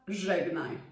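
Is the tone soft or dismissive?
dismissive. It is said in a dismissive tone.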